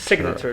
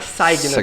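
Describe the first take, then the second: First: The first vowel is a short 'i'. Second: The first vowel is 'eye' as in sign. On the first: The speaker calls it right. "é C. É aquele curto" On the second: The speaker calls it wrong. "não é signature"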